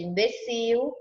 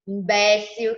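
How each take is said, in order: First: It carries the Portuguese stress pattern. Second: It carries the Spanish stress pattern. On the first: This is the Portuguese word. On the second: This is the Spanish word.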